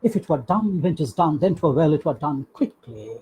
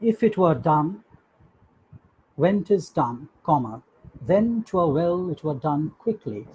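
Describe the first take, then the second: First: It runs on without a pause. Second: There is a pause before 'then'.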